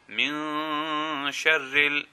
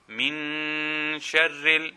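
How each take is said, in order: First: The N sound is slightly hidden and lengthened. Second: The N sound is pronounced fully and clearly. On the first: The speaker calls it right. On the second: The speaker calls it wrong.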